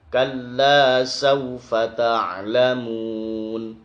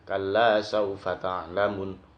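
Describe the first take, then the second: First: The final vowel is drawn out long. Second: The final vowel is said short. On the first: The speaker calls it right. "Harus baca tetap panjang" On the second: The speaker calls it wrong. "baca pendek ta'lamun. Nah, itu enggak boleh"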